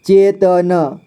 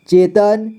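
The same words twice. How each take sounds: First: चेतन split as चे, त, न; syllable by syllable. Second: Said in the usual way. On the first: Shown as a demonstration. Teacher showing learners चेतन, sounded out in parts. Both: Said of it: "इसे पढ़ेंगे".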